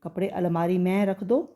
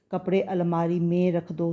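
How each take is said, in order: First: में said with open 'ai', as "main"; wrong vowel. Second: में with a narrow 'e', "men"; correct vowel. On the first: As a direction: widen में into "mɛ̃", like मैं. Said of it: "मैं नहीं". (में को खुले 'ऐ' से "मैं" बोलें) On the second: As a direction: say में as nasal "mẽ", vowel kept close. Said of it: "तो में बोलेंगे". (में को बंद 'ए' से बोलें) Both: Shown as a demonstration.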